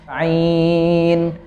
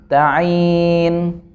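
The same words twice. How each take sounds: The two takes are said the same way.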